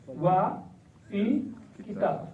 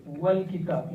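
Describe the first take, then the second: First: Wa and il kitab split apart with a pause; wrong separated form. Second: Wal kitab said as one smooth unit, wal blended; correct joined form. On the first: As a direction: say Wa, pause, then il kitab, as the mistake. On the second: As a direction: join Wal kitab with no break. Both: Shown as a demonstration. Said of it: "You don't say wa al kitab".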